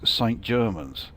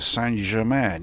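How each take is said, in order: First: The name ends like English Germans, with a final s. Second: The name ends like French Germain, without a final s. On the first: The speaker calls it right. "no, apparently it is Saint Germans" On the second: The speaker calls it wrong. "it sounds like it should be something like, yeah, Saint Germain, you know, as in Paris Saint Germain"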